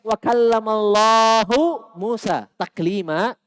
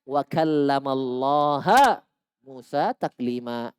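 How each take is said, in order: First: The word for God ends in a u vowel. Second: The word for God ends in an a vowel. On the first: God spoke to Moses. The speaker calls it right. "Kalau dibaca doma, Allah berbicara kepada Nabi Musa. Itu ayat yang sebenarnya" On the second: Moses spoke to God. The speaker calls it wrong. "digantilah harokatnya"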